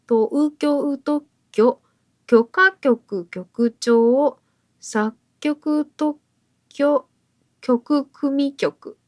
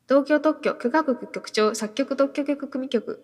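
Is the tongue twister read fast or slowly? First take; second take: slowly; fast. First: The phrase is read slowly and carefully. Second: The phrase is read quickly as a challenge. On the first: "ちょっとちゃんとゆっくり読みますね。" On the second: "ちょっとやってみましょうか。"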